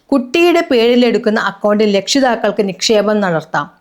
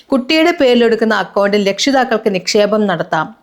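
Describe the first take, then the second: Both takes have the same delivery.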